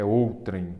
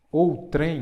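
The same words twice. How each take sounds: First: "outrem" stressed on the first syllable; pronúncia correta. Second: High, loud "Outrem", stressed on TREM; pronúncia rejeitada. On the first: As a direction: say "outrem" as OU-trem. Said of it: "É outrem. Não tem acento". ("outrem" com a primeira sílaba forte) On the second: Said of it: "não. É outrem". ("Outrem" com a última sílaba forte) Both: Shown as a demonstration.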